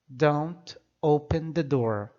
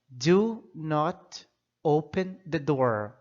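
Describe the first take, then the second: First: The negative is contracted into one syllable. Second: The negative is said as two full words. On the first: A plain, ordinary prohibition. "eu acrescento don't" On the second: The prohibition is emphatic: really do not do it. "se eu quero dar ênfase, realçar que não é para abrir a porta, eu vou usar do not"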